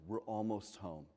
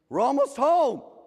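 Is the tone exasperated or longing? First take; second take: longing; exasperated. First: It sounds wistful and longing, full of hope. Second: It sounds like an exasperated, impatient parent.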